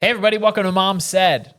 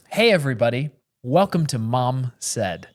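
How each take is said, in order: First: It is said fast and excitedly. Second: It is said slowly and calmly.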